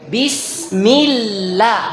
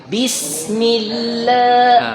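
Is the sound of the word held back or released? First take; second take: released; held. First: The sound is released freely. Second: The sound is held back inside. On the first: The speaker calls it right. "Suaranya lepas suaranya" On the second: The speaker calls it wrong. "Itu tertahan namanya"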